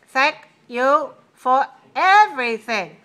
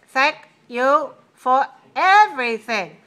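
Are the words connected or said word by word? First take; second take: word by word; word by word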